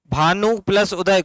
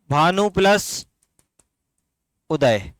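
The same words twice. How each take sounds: First: Said in the usual way. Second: Bhanu plus उदय split slowly, words held apart; slow sandhi split. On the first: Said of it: "बड़ा नु, छोटा नु?". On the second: Shown as a demonstration. Teacher to students, slowly splitting the word for them. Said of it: "very good".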